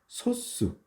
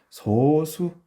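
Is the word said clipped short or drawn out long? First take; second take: clipped short; drawn out. First: The word is said short and clipped. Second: The word is said slowly and drawn out. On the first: "좀 짧게 끊어서 소수라고 읽어요" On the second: "소수 이렇게 길게 읽을 수 있어요"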